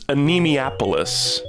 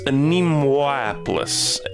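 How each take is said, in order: First: The name begins like the word anemia. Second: The name begins with an 'anemo' sound. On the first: The speaker calls it wrong. "I thought it was Anemiapolis. Like anemia, like losing blood" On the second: The speaker calls it right. "But it's Anemoapolis"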